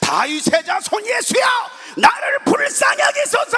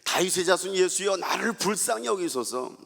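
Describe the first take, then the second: First: It is shouted loudly. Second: It is said quietly.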